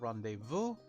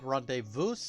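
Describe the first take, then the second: First: The word is pronounced in the usual standard way. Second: The word is pronounced in an unusual joking way. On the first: "instead of rendezvous" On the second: "I said rendezvous ... because South Park uh, movie reference"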